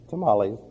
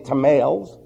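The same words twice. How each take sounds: First: It is said with a Spanish-style pronunciation. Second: It is said with an English-style pronunciation. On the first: The speaker calls it right. "That's tamales" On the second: The speaker calls it wrong. "We don't say tamales"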